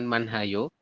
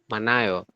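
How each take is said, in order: First: An h sound is heard before the second vowel. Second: No h sound is heard before the second vowel. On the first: The speaker calls it wrong. "Jadi dibacanya bukan manhayo" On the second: The speaker calls it right. "tapi manayo. Seperti itu. Hit-nya diabaikan"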